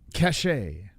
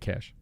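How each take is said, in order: First: It has a French-sounding pronunciation. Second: It sounds exactly like the English word cash. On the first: This is how the French say it. "That's how the French say it" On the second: This is how Americans say it. "We say cash"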